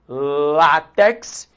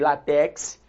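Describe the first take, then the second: First: The stress is on the first syllable. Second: The stress is on the last syllable. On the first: The speaker calls it right. "látex é uma paroxítona" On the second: The speaker calls it wrong. "repare que eu não falei látex"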